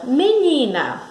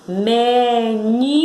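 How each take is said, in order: First: Said in the usual way. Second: "menina" stretched slowly, rising on ni; stressed syllable demo. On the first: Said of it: "A próxima palavra". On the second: Shown as a demonstration. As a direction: say "menina" as me, NI, pause, na. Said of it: "um impulso, que é o ni".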